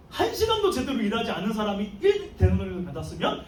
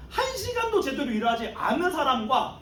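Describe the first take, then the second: First: Amazed, eager, half laughing; a worker who can't believe his luck; giddy expectation. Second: Outraged, mocking the slacker; indignant complaint. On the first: Retold or imitated. Early workers expecting more pay, eagerly excited. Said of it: "마음이 들떠있었어요". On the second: All-day workers complaining about the latecomer, indignant. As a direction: spit out the unfairness. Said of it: "불평불만하고 막 그 삿대질을 하면서".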